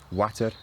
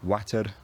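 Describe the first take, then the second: First: It ends with a voiceless tapped r. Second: It ends with a voiced tapped r. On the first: "with a voiceless tap" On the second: "with a, a voiced uh, tap"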